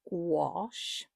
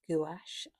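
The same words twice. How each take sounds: First: It is said with the standard pronunciation. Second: It is said the way it looks spelled. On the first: The speaker calls it right. "the correct way of pronouncing it is gouache" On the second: The speaker calls it wrong. "it looks like it's gouache, and I have to say, I say gouache, I always get told off"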